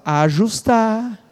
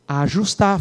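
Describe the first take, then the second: First: Slow, drawn-out ajustar for the church to echo; slow call to repeat. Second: Said in the usual way. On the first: Shown as a demonstration. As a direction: stretch ajustar out slowly. (ajustar dito devagar para a igreja repetir) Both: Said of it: "fala, ajustar".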